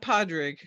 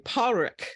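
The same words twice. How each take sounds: First: The d sound in the middle is clearly pronounced. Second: The d sound in the middle is dropped. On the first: This is how Americans say the name. The speaker calls it wrong. "it's not Podrick. It's the Americans pronounce the D" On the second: This is the actual Irish way of saying the name. The speaker calls it right. "It's actually Podrick"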